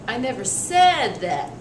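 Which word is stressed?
said. The stress falls on the word said. It was only implied or suggested. "just change the stress"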